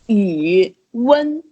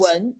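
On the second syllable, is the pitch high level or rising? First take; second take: high level; rising. First: The second syllable stays high and level. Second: The second syllable rises in pitch. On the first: "if you change 文 to the first tone" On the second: "second tone is"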